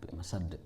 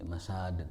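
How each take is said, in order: First: The second vowel is kept short. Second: The second vowel is drawn out long. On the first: The speaker calls it right. "sadnya nggak panjang" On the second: The speaker calls it wrong. "Tidak tidak di masad"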